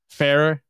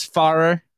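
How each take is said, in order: First: "Farrer" with an "air" vowel, as FAIR-er; questioning "Farrer", opening like "fair"; second-guess pronunciation. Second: "Farrer" with an open "far" vowel; first try at "Farrer", opening like "far"; first-guess pronunciation. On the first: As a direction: try "Farrer" as FAIR-er, unsure. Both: Shown as a demonstration. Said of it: "I'm blowing your name".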